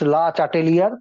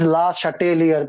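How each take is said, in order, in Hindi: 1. नाम का उच्चारण अंग्रेज़ी ढंग से किया जाता है। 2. नाम का उच्चारण फ़्रेंच ढंग से किया जाता है। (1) "some people used to say it's" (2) "but it is La Chatelier principle"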